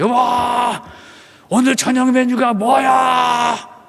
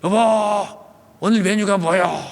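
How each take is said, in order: First: It is said loudly. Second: It is said at normal volume.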